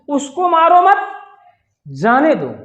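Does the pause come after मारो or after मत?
after मत. The pause comes after मत.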